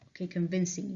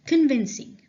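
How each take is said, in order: First: Said in the usual way. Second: Called out loud and high; loud announcement. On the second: Shown as a demonstration. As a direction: announce the word loudly to the class.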